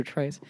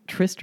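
First: Tryst with a long i, as in "iced"; long-i pronunciation. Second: Tryst with a short i, as in "wrist"; short-i pronunciation. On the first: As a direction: say tryst to rhyme with "priced". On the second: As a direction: say Tryst to rhyme with "list". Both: Shown as a demonstration. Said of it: "is that how you pronounce it?".

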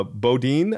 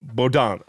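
First: Bodine said the Midwest way, rhyming with wine; Midwest pronunciation. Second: Baudin said French-style as boh-DAN; corrected pronunciation. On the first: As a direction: say Bodine as bo-DINE, slow and unsure. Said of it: "if I say it in the Midwest accent". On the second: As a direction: repeat Baudin as boh-DAHN, nasal ending. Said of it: "How do you say that?". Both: Shown as a demonstration.

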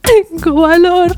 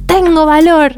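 First: Timid echo. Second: Encouraging quote. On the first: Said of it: "Y yo tipo". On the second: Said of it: "tenés que decir". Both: Retold or imitated.

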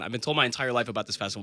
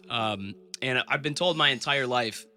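First: "I've been told my entire life" rattled off fast; fast second take after the digression; fast restart. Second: "told" drawn out slowly, a measured opening; slow first take before the digression; slow start. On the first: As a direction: rush through the restarted line. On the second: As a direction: ease into "I've been told my entire life" slowly. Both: Real, not acted. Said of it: "I'll digress for a second".

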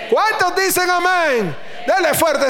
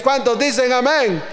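First: Preacher's shout. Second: Said in the usual way. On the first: Real, not acted. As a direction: shout ¿Cuántos dicen amén? stretching Cuántos. (grito de predicador alargando cuántos)

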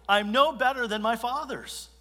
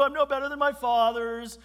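First: Higher self-pitying sigh; self-pitying lament. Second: Much higher mocking whimper; mock the self-pity, higher; hammed-up whining. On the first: Retold or imitated. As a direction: sound defeated, a bit higher. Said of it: "Elijah's just self-pity overtakes him". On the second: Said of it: "Boo-hoo".

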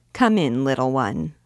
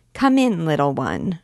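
First: Said in the usual way. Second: Put-on little girl aping the lady, pitched up; comic dignity. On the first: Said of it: "addressed the dancer". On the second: A narrator's reading. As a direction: mimic the lady with pompous childish dignity. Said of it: "repeated with comic dignity Bérangère".

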